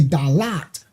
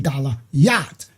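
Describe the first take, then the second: First: It is said as two syllables. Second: It is said as three syllables with 'yah'. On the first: The divine name has been taken out. The speaker calls it wrong. "We don't say Dalat" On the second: The divine name has been put back. The speaker calls it right. "we say Dalayat because we put the Father back"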